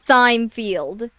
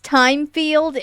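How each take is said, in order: First: The name begins with a th sound. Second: The name begins with a plain t sound. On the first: The speaker calls it wrong. "not Thymefield" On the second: The speaker calls it right. "it's pronounced Timefield"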